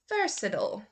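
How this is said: The last syllable is a weak 'ul' sound. "then I will go over to the U S pronunciation"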